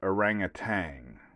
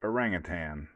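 First: The word ends with a 'tang' sound. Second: The word ends with a 'tan' sound. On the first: "everyone said orangutan. Kind of like getting some poontang" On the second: "So I say it like that to be cool"

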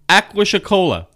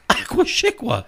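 First: The name is said just as spelled. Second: The name is not said as spelled. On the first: The speaker calls it wrong. "he pronounced it just the way it was written" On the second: The speaker calls it right. "no, it's Aqua Chicola"

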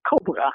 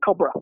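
First: The second syllable has a full vowel. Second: The second syllable has a reduced vowel. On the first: This is the Dutch form of the word. "the second syllable has secondary stress and the four vowels, it's not schwa" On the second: This is the English form of the word. "the second syllable in English is reduced. It's just a schwa"

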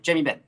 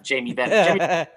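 First: The name is run together as one word. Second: The name is said as two separate words. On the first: This is how a small child says the name. "Jamie Benn is one word for him" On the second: This is the usual way to say the name. "It's not Jamie Benn"

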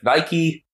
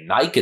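First: It is said the American way. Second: It is said the Australian way. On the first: "instead of Nike" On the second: "You say Nike"

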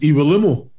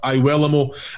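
First: The name is said the original Nigerian way. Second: The name is said the family's altered way. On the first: This is the name's original pronunciation. "the right pronunciation is Iwelumo" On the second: This is the version the family adopted. "that's what we've grown up with"

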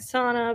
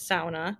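First: It uses the usual American pronunciation. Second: It uses a pronunciation that is not American. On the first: The speaker calls it wrong. "In the United States, we're very used to saying sauna" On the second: The speaker calls it right. "but it is sauna"

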